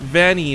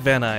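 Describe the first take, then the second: First: The name ends with an 'ee' sound. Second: The name ends with an 'eye' sound. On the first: The speaker calls it wrong. "it just sounds weird to have like, the E sound" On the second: The speaker calls it right. "I like Van Eye. I think it sounds cooler"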